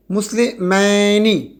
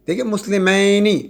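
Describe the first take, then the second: First: مسلمینی drawn out very slowly; slow demo. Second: Said in the usual way. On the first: Shown as a demonstration. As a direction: stretch it so the ینی ending is heard. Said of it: "حالت نصب میں اور جر میں کیا ہوگا". (بہت آہستہ کھینچا ہوا لفظ)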